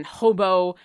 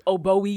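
First: Hobo said with an H, like the word for a tramp; hobo: an H in front of oboe, HOH-boh; wrong pronunciation. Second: Oboe said OH-boh, no H at the start; oboe: open OH-boh, vowel first; correct pronunciation. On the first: Retold or imitated. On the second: Shown as a demonstration. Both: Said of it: "my gamer tag has been oboe something".

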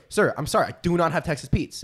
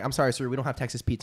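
First: Each word of "do not" set apart and stressed; firmly retold refusal, weight on "do not". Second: Said in the usual way. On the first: Firmer repeat of retold refusal.

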